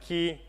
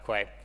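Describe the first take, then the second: First: The word sounds exactly like 'key'. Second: The word begins with a 'kw' sound. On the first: This is how many other people say the name. "a lot of uh, people may pronounce it Key" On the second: This is how the company says the name. "it's called Quay because that's how we pronounce it"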